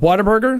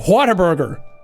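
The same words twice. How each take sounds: First: The opening 'wh' is plain, without a breathy h. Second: The opening 'wh' has a strong breathy h. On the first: The place sounds unexciting. The speaker calls it wrong. "that doesn't sound fun" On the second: The place sounds exciting. The speaker calls it right. "then it's like, ooh"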